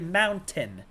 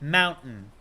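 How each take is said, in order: First: The middle t sound is clearly pronounced. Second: The middle t sound is dropped. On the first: This is how some other people say it. "Some people say mountain, and I that might be more accurate" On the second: This is how people from the speaker's region say it. "we take some of those consonants out"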